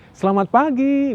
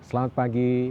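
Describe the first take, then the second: First: It is said in a high pitch. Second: It is said in a flat pitch.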